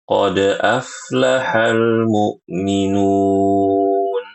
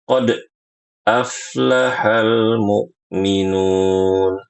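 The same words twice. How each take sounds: First: The bounce on the d sound flows on naturally. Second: The bounce on the d sound is abruptly cut off. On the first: The speaker calls it right. "dibaca qalqalahnya itu secara natural" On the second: The speaker calls it wrong. "Suara qalqalahnya diputus"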